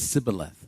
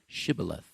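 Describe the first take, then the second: First: The word begins with an 's' sound. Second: The word begins with an 'sh' sound. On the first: The speaker calls it wrong. "the best they could get is sibboleth" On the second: The speaker calls it right. "hard for them to say these type of words"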